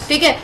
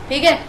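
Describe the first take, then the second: The two takes are said the same way.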